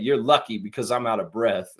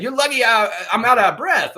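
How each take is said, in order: First: Said in the usual way. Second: High, loud mock quote; hammed-up repeat of a funny line; amused mock retelling. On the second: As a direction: act out the punchline, pitched up and loud. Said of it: "He's like".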